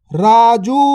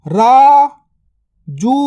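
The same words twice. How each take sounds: First: Said in the usual way. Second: Raju drawn out very slowly; slow stretched word. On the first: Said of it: "normal take". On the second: Shown as a demonstration. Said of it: "stretched drill take". (Raju को धीरे खींचकर बोलें)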